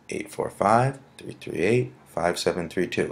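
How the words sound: The digits are grouped with pauses and a rhythmic cadence. The number is easier to remember. The speaker calls it right. "if you use the sort of um, cadence or tone"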